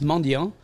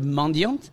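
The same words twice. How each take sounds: First: The final T sound is silent. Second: The final T sound is pronounced. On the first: The speaker calls it right. "is actually pronounced mendiant. We don't pronounce the T at the end" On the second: The speaker calls it wrong. "the French word mendiant"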